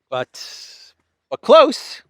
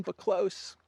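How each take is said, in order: First: High, loud teasing hint. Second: Said in the usual way. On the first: Real, not acted. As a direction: tease the clue upward.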